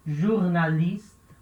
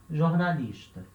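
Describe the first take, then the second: First: Careful teacher demo of "jornalista"; slow model word. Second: Said in the usual way. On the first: Shown as a demonstration. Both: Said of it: "Letra G vai ter som de J".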